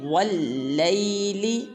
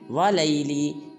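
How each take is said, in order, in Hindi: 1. L की आवाज़ दोहरी और खिंची हुई है। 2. L की आवाज़ छोटी और इकहरी है। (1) "वाव को लाम मुशद्दद के साथ मिलाएंगे" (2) "ये बिल्कुल गलत है"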